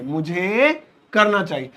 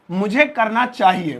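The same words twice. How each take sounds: First: Slow, deliberate model line; मुझे करना चाहिए said slowly, each word clear; slow repeat. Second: Said in the usual way. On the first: Shown as a demonstration. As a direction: spell it out slowly.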